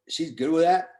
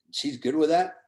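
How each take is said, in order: Both takes have the same delivery.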